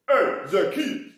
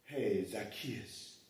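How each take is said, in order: First: Slow, loud sing-song call; loud drawn-out hail up into the tree; overdone Jesus greeting. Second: Low, soft, slow mock greeting; hushed slowed-down hello to the tree; understated Jesus greeting. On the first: Retold or imitated. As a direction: ham up the greeting. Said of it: "no, he didn't do that much". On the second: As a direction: try it quietly instead. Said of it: "Nah, no, no, it wasn't like that".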